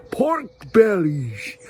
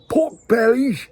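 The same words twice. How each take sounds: First: "pork bellies" drawn out slowly in a mock American accent; slow, exaggerated American "pork bellies". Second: High, whispered mock American accent on "pork bellies"; a light stab at an American accent. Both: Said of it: "I don't know if that's the right accent".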